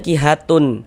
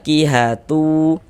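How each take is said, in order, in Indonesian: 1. Kata ini berakhir dengan n yang jelas diucapkan. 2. Kata ini berakhir tanpa bunyi n yang terpisah. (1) "Jangan dibaca kihatun" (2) "tapi dibaca kihatu"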